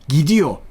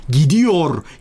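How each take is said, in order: First: The final r sound is dropped. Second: The final r sound is clearly pronounced. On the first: The speaker calls it right. "diye söylüyoruz" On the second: The speaker calls it wrong. "R harfi olmasına rağmen gidiyor, geliyor diye değil"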